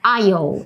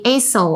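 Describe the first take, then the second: First: No s sound is pronounced in the middle. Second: An s sound is pronounced in the middle. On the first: The speaker calls it right. "aisle is the correct pronunciation" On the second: The speaker calls it wrong. "The S is silent, so don't say aisle"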